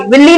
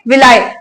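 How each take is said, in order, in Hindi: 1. यह शब्द 'ee' ध्वनि से खत्म होता है। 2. यह शब्द 'eye' ध्वनि से खत्म होता है। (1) "विल्ली नहीं बोलेंगे" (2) "क्या बोलेंगे? विलाय"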